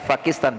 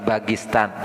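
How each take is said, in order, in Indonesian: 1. Kata ini diawali dengan bunyi P. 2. Kata ini diawali dengan bunyi B. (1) "bukan Pakistan"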